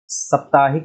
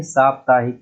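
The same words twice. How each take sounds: First: साप्ताहिक said with short first vowel, saptaahik; wrong short vowel. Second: साप्ताहिक with long first vowel, saap-taahik. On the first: Teacher showing the error, साप्ताहिक with short sap-. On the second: Teacher giving the correct form, साप्ताहिक with long saap-. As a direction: lengthen the opening aa of साप्ताहिक. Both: Shown as a demonstration. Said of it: "साप्ताहिक नहीं".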